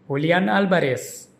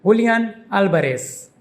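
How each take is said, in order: First: Julian Alvarez with Alvarez stressed, AL-ba-res, first syllable hit. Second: Julian Alvarez with JuLIAN stressed and the last syllable hit, Alvarez falling. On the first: Teacher leans on the surname as she says the full name. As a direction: Julian said lightly, then AL in Alvarez leaned on. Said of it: "the emphasis is on the beginning syllable". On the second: Teacher leans on the first name as she says the full name. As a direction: Julian hit hardest, hoo-lee-AHN, then AL-ba-res. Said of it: "The emphasis is on the last syllable un". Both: Shown as a demonstration.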